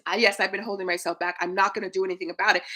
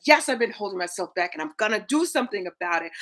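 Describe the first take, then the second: First: Fast, lightly mock half-hearted; half-hearted yes. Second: Fast, firm committed "Yes"; mean it when you say "Yes". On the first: Coach mimics a viewer's empty admission, lightly half-hearted. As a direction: shrug off "yes, I've been holding myself back". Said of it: "Not just". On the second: Shown as a demonstration. Coach shows viewers the committed way, firm and fast. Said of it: "It's like".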